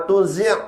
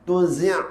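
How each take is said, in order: No difference in how they are said.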